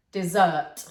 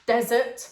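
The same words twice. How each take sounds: First: "desert" as di-ZERT, second syllable loud; stress on second syllable. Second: "desert" as DEZ-ert, weight up front; stress on first syllable. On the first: Teacher repeating the contrast for learners, second syllable of "desert" stressed. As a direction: punch the end of "desert" like dessert. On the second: Teacher repeating the contrast for learners, first syllable of "desert" stressed. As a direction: punch the opening syllable of "desert". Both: Shown as a demonstration. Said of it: "look at the emphasis on the word".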